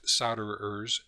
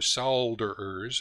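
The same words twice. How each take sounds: First: The word is said with an American pronunciation. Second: The word is said with a British pronunciation.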